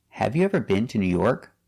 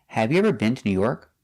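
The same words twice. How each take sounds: No difference in how they are said.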